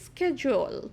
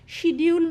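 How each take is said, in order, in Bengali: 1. শব্দটি sk ধ্বনি দিয়ে শুরু হয়। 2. শব্দটি sh ধ্বনি দিয়ে শুরু হয়। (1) "উচ্চারণটা কি স্কেজুয়াল" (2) "শিডিউল নয় কিন্তু হ্যাঁ এটা কিন্তু ভুল উচ্চারণ"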